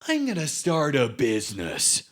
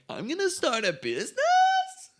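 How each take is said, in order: First: The voice falls at the end of the sentence. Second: The voice rises at the end of the sentence. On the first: The speaker sounds sure. "they they're like" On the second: The speaker sounds unsure. "Whereas we're like"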